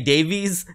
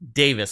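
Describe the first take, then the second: First: The last syllable sounds like 'vees'. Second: The last syllable sounds like 'vis'. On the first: The speaker calls it wrong. "I think I've been pronouncing it Ray Davies this whole time" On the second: The speaker calls it right. "it's actually pronounced Davis"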